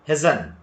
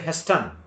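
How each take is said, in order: First: The T sound is left out. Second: The T sound is clearly pronounced. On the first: The speaker calls it right. "we have to say Hessen" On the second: The speaker calls it wrong. "don't say Heston"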